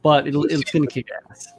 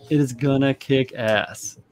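First: Said in the usual way. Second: Slow, firm "It is gonna kick ass" with IS leaned on; stress on IS. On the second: Real, not acted.

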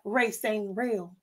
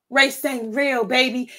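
First: Very soft and slow, almost under the breath; hushed aside. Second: Said in the usual way. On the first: Real, not acted. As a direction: drop the voice to a slow murmur. Aside musing on race.

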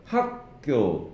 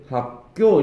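First: 학교 with the first syllable 학 leaned on; strong 학, lighter 교 in 학교; stress on 학. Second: 학교 with the last syllable 교 punched; light 학, hit 교 in 학교; wrong stress on 교. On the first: Teacher showing Korean front stress, 학교 stressed on 학. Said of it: "다 앞에 강세가 옵니다". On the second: Teacher showing what not to say, 학교 stressed on 교. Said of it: "이렇게 하지 않아요". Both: Shown as a demonstration.

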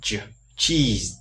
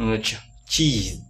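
First: "ch-" đọc gần như "j", rồi "cheese"; thử âm đầu hơi đục cho "cheese"; âm đầu đục hơn. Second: "cheese" tách âm "ch-" rồi đọc chậm; tách âm đầu rồi đọc chậm "cheese"; đọc chậm, bật mạnh. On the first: ("cheese" với âm đầu đục hơn) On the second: (đọc chậm "cheese" bật mạnh âm ch) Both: Shown as a demonstration. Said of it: "đọc mạnh ấy".

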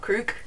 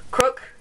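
First: "crook" with a long oo, like "crewk"; "crook" mispronounced with a drawn long vowel; mispronunciation. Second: "Crook" with the short vowel of "book"; "Crook" pronounced correctly, short vowel; corrected pronunciation. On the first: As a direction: say "crook" to rhyme with "Luke". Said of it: "Crook, not crook". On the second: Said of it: "not crook". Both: Shown as a demonstration.

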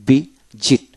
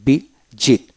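The two takes are said the same way.

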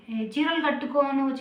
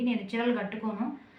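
First: Slow, teasing voice of a commenter drawling ఏ, చీరలు కట్టుకోను; mock commenter quote. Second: Said in the usual way. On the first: Vlogger mimics a viewer's saree comment, slow and teasing. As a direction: stretch ఏ, చీరలు కట్టుకోను slowly like a nosy viewer. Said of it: "అని అయితే comment వచ్చింది".

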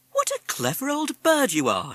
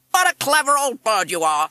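First: High-pitched praise for a pet; admiring mother. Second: High, very loud squawked echo; parrot mimic. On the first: Mother praising the parrot, high and admiring. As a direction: coo over the bird in a high voice. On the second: Parrot repeating the mother's praise, squawky mimic. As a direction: squawk the praise back loudly. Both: A narrator's reading.

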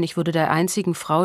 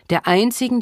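First: Said in the usual way. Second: "einzigen" hit high and loud; stress on einzigen. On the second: Acted. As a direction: lean hard on "einzigen". Der einzigen.

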